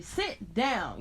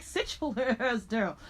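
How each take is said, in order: First: Said in the usual way. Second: Slow, drawn-out sassy order to sit; a girl ordering a classmate down with attitude; sassy telling off. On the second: Retold or imitated. Schoolgirl telling a classmate off, slow and sassy. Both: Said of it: "just high energy".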